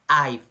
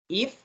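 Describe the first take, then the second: First: It has a long 'eye' vowel and ends in v. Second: It has a short vowel and ends in f. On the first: The speaker calls it right. "So you have to pronounce I've" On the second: The speaker calls it wrong. "you tell me um, if"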